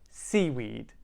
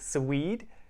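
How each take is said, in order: First: The stress is on the first syllable. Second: The stress is on the second syllable. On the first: The speaker calls it right. "We're saying seaweed. C is much stronger" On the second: The speaker calls it wrong. "We're not emphasizing the weed. We're not saying seaweed"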